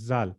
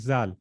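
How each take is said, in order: No difference in how they are said.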